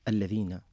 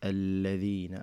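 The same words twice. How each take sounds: First: One syllable gets a strong, jumping push of voice. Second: The syllables are said evenly, without a push. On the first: The speaker calls it wrong. "فيكون هناك قفز بالكلمة والكلمة لا تحتاج إلى هذا" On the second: The speaker calls it right. "بدون نبر"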